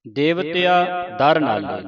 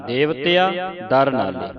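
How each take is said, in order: First: ਦਰ set apart from ਦੇਵਤਿਆ with a clear break; ਦਰ read as its own word; separate the word. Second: ਦਰ spoken clearly apart after ਦੇਵਤਿਆ; ਦਰ kept as a separate word. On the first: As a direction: say ਦੇਵਤਿਆ, pause, then ਦਰ ਨਾਲੇ. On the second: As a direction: break before ਦਰ so it is not joined. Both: Shown as a demonstration. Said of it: "ਦਰ ਵੱਖਰਾ ਪੜਨਾ ਹੈ".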